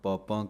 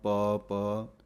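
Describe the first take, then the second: First: The final vowel is nasalized. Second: The final vowel is not nasalized. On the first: The speaker calls it wrong. "ਕਈ ਬਿੰਦੀ ਲਵਾਉਂਦੇ ਹਨ ਪਾਪਾਂ ਕਹੋ" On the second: The speaker calls it right. "ਬਿੰਦੀ ਨਹੀਂ ਹੈ ਅਤੇ ਨਹੀਂ ਬੋਲਣੀ"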